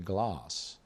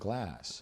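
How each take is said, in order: First: The vowel is the long British broad a. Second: The vowel is the short American flat a. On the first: This is not how the speaker normally says it. "we have so many words in America that I don't say glass" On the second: This is how the speaker normally says it. "I say"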